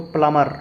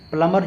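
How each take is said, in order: First: प्लम्बर as "plamar", B silent; English pronunciation. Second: Second प्लम्बर as "palambar" with B; Hindi pronunciation. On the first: Teacher gives English form, प्लम्बर without B. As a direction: go from M straight to the vowel in प्लम्बर. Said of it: "अंग्रेजी में जब उच्चारण इसका करते हैं". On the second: Teacher shows the Hindi form, प्लम्बर with sounded B. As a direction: voice the B after M in प्लम्बर. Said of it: "Hindi में प्लम्बर बोलते हैं". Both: Shown as a demonstration.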